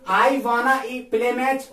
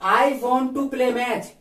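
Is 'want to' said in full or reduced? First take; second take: reduced; full. First: Want and to merge into one reduced word. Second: Want and to are said as separate full words. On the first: "ये वॉन्ट टू और वॉन्ट्स टू का ही contract form है" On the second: "वॉन्ट टू है आपका plural"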